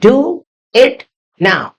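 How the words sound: It is spoken in an Indian English accent. "अगर आपको Indian accent में बोलना हो तो"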